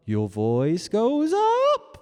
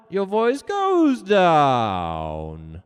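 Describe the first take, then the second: First: Voice going up. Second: Long swooping descent on the last word; voice going down. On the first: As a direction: pitch sliding upward into a long, loud high note. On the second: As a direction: start high and loud, slide slowly down. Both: Shown as a demonstration.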